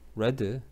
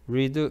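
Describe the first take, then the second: First: The vowel is short, like 'red'. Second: The vowel is long, like 'reed'. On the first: It is the past tense. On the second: It is the present tense.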